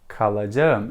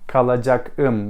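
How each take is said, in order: First: The consonant before the ending is a soft g. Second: The consonant before the ending is a hard k. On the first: The speaker calls it right. "It's more soft" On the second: The speaker calls it wrong. "We don't say this because it is hard to say"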